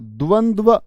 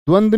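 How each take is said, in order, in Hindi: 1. अंत में आधा d और पूरा va है। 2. अंत का d-v संयुक्त अक्षर 'dva' की तरह नहीं बोला जाता। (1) "द्वंद्व ऐसे बोलेंगे। दे आधा, वे पूरा" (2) "द्वंद्व नहीं बोलना"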